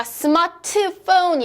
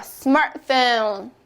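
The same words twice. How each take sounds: First: 스마트폰 with every syllable sounded, "seu-ma-teu-pon", higher; wrong Koreanized pronunciation. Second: 스마트폰 as English "SMAR-fone", T dropped, drawn out; correct English pronunciation. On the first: Teacher mockingly asks if she said it so, Koreanized. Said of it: "제가 스마트폰 이랬나요?". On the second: Teacher corrects the Korean version, English pronunciation. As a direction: say 스마트폰 slowly in two beats without the "teu". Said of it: "아니죠". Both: Shown as a demonstration.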